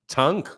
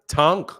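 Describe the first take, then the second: The two takes are said the same way.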